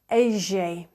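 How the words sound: The double L is said the Buenos Aires way. "if you're from Buenos Aires in Argentina, you pronounce the double L"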